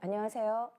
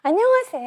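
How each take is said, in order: First: The pitch stays in a narrow, flat range. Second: The pitch swings widely up and down. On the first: The speaker calls it right. "저희는 어때요?" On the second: The speaker calls it wrong. "뭐 이러진 않잖아요"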